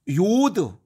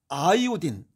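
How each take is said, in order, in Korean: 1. 한 음절로, 'yod'처럼 발음합니다. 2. 'eye-o-deen' 소리로 끝납니다. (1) "요드는 독일식 발음이고" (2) "아이오딘은 영국식 발음이고"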